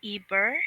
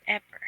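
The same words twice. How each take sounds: First: Eber with a long EE at the start; questioning "Eber", first vowel as in "see". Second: Eber with a short EH at the start; questioning "Eber", first vowel as in "bed". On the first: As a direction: say Eber as EE-ber. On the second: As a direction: say Eber as EH-ber. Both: Shown as a demonstration. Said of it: "is it Eber or Eber".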